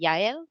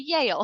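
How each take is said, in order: First: The name is said with a Mexican Spanish pronunciation. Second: The name is said with a local English pronunciation. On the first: "in Mexico, they would pronounce it Yael" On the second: "here people would just say Yale"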